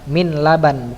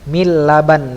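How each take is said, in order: First: The n is pronounced before the l. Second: The n merges into a doubled l. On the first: The speaker calls it wrong. "bukan min laban, bukan gitu ya" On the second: The speaker calls it right. "tapi mil laban, langsung di huruf lam"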